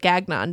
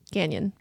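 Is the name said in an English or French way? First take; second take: English; French. First: The name is read as English spelling suggests. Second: The name is said with French pronunciation. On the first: The speaker calls it wrong. "it looks like Gagnon" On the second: The speaker calls it right. "but it's Gagnon. It's French"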